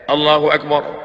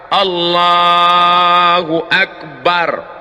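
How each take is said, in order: First: The takbir is said short and quick. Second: The takbir is drawn out long.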